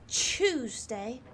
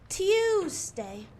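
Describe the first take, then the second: First: The T is followed directly by 'oo'. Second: The T is followed by a 'y' sound. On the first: The speaker calls it wrong. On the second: The speaker calls it right. "You need to pronounce the T, the I on the U"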